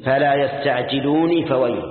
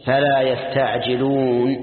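First: يستعجلوني with a "nee" ending, run on into فويل; الوصل بكسر النون. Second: Slow recited يستعجلون, long "uuun" closed on silent n; لفظ الآية بالوقف. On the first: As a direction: slowly join يستعجلوني to فويل through an i vowel. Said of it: "إذا وصلت كيف تقول". (وصل يستعجلوني بكلمة فويل مع كسر النون) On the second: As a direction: draw out يستعجلون and stop on the bare n. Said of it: "هذا لفظ الآية". (تلاوة يستعجلون بمد طويل ونون ساكنة) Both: Shown as a demonstration.

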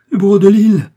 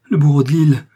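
First: Much higher and louder, a full shriek; shrieking terror. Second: Loud, higher cry of dread, falling at the end; panicked scream. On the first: Milady repeats the name, shrieking in mad terror. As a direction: let the terror break into a shriek. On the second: Milady recognises the executioner and cries out in terror. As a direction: blurt out the name in terror. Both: Acted. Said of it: "en proie à une terreur insensée".

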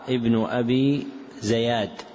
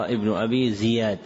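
First: زياد said "Zayad", slowly; fatha on zay. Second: زياد said "Ziyad"; kasra on zay. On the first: Teacher citing a misprinted name, زياد with fatha. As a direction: put a short "a" after the z in زياد. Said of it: "فوقع بفتح الزاي". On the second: Teacher correcting the name, زياد with kasra. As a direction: put a short "i" after the z in زياد. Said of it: "وهو بكسرها". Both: Shown as a demonstration.

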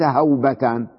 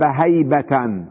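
First: هوبة with a w-glide, HAW-ba-tan; wrong noun form. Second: هيبة with a y-glide, HAY-ba-tan; correct noun form. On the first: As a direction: show the mistaken هوبة with aw in the first syllable. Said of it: "وليس هوبة". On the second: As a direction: slowly model هيبة with ay in the first syllable. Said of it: "نقول هاب هيبة وليس هوبة". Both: Shown as a demonstration.

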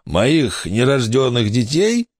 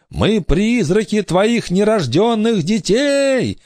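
First: Slow, puzzled question, rising at the end; incredulous echo. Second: High, slow wailing announcement; ghostly proclamation. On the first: Pirate echoes the ghost's claim, slow incredulous question. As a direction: repeat it as a baffled question. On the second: Girl announces herself to pirate, ghostly proclaiming voice. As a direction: proclaim it like a spirit come to haunt. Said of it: "объявила Корделия". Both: A narrator's reading.

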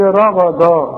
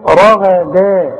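First: RAGHADA with رغدا ending in a thick, emphatic D; heavy wrong dal. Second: رغدا slowly, heavy RA-GHA then thin DA; light dal. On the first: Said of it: "اوعى تقول لي". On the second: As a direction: thicken the first two syllables of رغدا, lighten the D. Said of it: "الدال دي رقيقة قوي". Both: Shown as a demonstration.

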